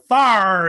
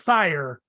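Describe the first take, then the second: First: It is said in a Southern drawl. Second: It is said in a standard accent.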